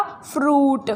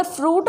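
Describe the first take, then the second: First: Said in the usual way. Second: फ्रूट sounded as fru-it, both vowels; फ्रूट with u and i pulled apart; split spelling vowel. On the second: Shown as a demonstration. Teacher to students, reading fruit letter by letter. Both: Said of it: "लेकिन इसको बोलेंगे क्या".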